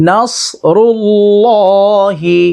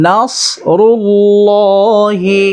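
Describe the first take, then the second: No difference in how they are said.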